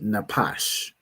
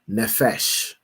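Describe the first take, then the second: First: The middle consonant is a p sound. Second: The middle consonant is an f sound. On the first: The speaker calls it right. "this word would be napash" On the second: The speaker calls it wrong. "pronounced his pa as a, as a fa, as an f"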